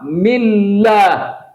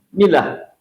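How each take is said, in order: First: The 'l' sound is doubled and held. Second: The 'l' sound is single and short. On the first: The speaker calls it right. "Kenapa millah?" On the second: The speaker calls it wrong. "Tidak boleh milah"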